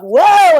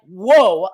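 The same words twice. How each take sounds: First: High, loud whoa of a grand entrance; over-the-top excited holler; big mock whoa. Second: Mock taken aback; taken-aback whoa. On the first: Her big arrival versus their reaction. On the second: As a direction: answer as if put off. Guys' taken-aback reply to her.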